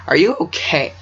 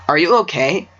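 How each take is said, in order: First: Voice crack. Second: Said in the usual way. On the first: Real, not acted. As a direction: voice cracking on a question. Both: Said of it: "Voice crack".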